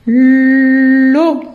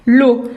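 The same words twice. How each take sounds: First: "L'eau" with a long held l, then o, as llllo; stretched first sound. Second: Said in the usual way. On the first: Shown as a demonstration. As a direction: lean loudly on the l of "L'eau" before the vowel. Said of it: "on dit que le début". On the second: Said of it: "Donc, je vais écrire".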